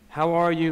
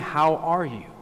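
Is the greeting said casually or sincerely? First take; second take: casually; sincerely. First: It is said casually, like a quick hey. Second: It is said sincerely, really meaning it.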